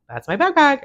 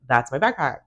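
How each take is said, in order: First: Higher and louder, insisting; louder insistence. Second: Said in the usual way. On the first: Retold or imitated. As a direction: demand it back, raising your voice. Insists again, escalating.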